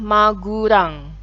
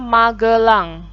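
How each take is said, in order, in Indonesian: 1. Diucapkan dengan bunyi u dan r. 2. Diucapkan dengan bunyi e dan l. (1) "jadinya Magurang" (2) "nama kota Magelang"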